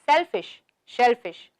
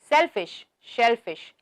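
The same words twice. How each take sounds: No difference in how they are said.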